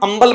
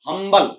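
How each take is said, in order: First: The word begins with a vowel, no h. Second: The word begins with a clear h sound. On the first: The speaker calls it wrong. "इसका उच्चारण अंबल मत कर देना" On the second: The speaker calls it right. "इसमें एच बोला जाता है"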